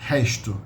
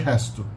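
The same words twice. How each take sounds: First: The s sounds like sh, Rio style. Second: The s is a plain hissing s.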